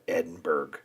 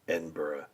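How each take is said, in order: First: The ending is said like the end of Pittsburgh. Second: The ending is said unlike the end of Pittsburgh. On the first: The speaker calls it wrong. "you cannot call it Edinburgh, no matter what ... It's not pronounced like Pittsburgh" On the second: The speaker calls it right. "You need to call it Edinburgh"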